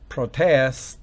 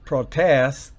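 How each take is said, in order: No difference in how they are said.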